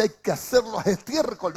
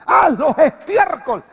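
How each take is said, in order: First: Said in the usual way. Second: Slow, loud, higher command on Haz; commanding shout. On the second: Shown as a demonstration. Preacher booming David's order to the congregation, slow and loud. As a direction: bark out Haz los estiércol like a king's order. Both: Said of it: "No, Pablo, David dice".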